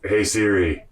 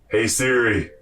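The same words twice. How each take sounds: First: It is said fairly quietly. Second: It is said louder than before.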